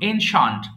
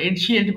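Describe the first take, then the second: First: The word has two syllables, ending 'shunt'. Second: The word has three syllables, ending 'shee-ent'. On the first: The speaker calls it right. "উচ্চারণ এনশান্ট" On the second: The speaker calls it wrong. "আমরা এনশিয়েন্ট বলি ভুল"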